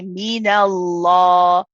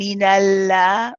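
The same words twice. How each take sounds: First: The l sound is heavy and full. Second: The l sound is light and thin. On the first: The speaker calls it right. "We say minallah" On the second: The speaker calls it wrong. "So we're not saying minallah"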